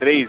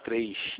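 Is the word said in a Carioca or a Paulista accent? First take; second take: Paulista; Carioca. First: It is said in a São Paulo accent. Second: It is said in a Rio de Janeiro accent. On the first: The speaker calls it wrong. "o paulista fala 3. 3, é feio demais" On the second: The speaker calls it right. "O carioca é falar 3"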